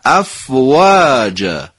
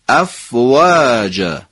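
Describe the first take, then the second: No difference in how they are said.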